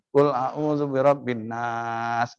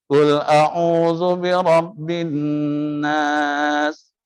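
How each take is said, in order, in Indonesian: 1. Suku kata terakhir nas dibaca panjang. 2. Suku kata bin didengungkan panjang. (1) "nasnya dipanjangkan" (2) "min bin itu yang harus dida dengungkan"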